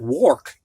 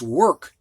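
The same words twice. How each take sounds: First: The vowel sounds like 'or'. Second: The vowel sounds like 'er'. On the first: The speaker calls it wrong. "O R, which should be or" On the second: The speaker calls it right. "sounds like E R"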